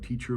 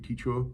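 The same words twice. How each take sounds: First: The final R sound is clearly pronounced. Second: The final R is replaced by a vowel. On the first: "a word like teacher" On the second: "will replace R with uh"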